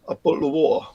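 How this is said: It is said in a working-class Estuary English accent. "estuarial English, which is working class from the same area"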